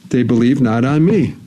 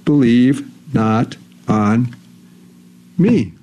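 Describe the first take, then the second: First: Said in the usual way. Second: "believe not on me" very slow, a pause between the words; word-by-word emphasis. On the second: Shown as a demonstration. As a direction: spell out "believe... not... on... me", holding back "me". Verse slowed for emphasis.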